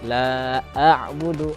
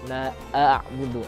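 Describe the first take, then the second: First: A glottal stop comes before the ain sound. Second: The same.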